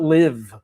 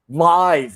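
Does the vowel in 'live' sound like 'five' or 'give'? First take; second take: give; five. First: The vowel sounds like the one in 'give'. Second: The vowel sounds like the one in 'five'. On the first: It means to reside somewhere. The speaker calls it wrong. "not live" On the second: It means broadcast in real time. The speaker calls it right. "I'm saying live"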